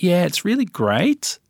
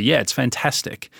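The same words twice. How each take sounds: First: "really great" pitched high, climbing at the end like a question; Australian rising end. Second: Said in the usual way. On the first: Shown as a demonstration. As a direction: sing "great" upward, Aussie uptalk. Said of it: "it's very drawn out". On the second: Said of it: "in Britain, for example, they'll say".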